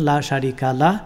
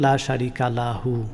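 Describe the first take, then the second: First: The last word ends short as 'lah', then stops. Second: The last word ends as 'lahu' and runs on. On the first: The speaker stops after this phrase. "থামলে বলবেন লা শারিকা লাহ" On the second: The speaker continues into the next phrase. "চালিয়ে গেলে বলবেন লা শারিকা লাহু ওয়া আশহাদু আন্না"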